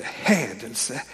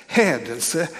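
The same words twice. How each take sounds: First: Low muttered hädelse with a rise; scandalised priest. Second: Said in the usual way. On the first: Retold or imitated. Priests reacting to Jesus' words, low scandalised mutter. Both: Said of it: "som de skriftlärda och prästerna tänkte".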